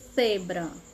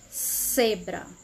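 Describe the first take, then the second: First: The first sound is a th sound. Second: The first sound is an s sound. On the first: This is how people in Spain say it. "Com a língua encostando nos dentes" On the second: This is how Latin Americans say it. "Lá no Paraguai"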